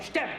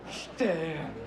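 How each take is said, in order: First: It is said in an angry, scolding tone. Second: It is said with intense passion. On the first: "Tu peux le dire en l'engueulant" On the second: "Tu peux le dire avec passion"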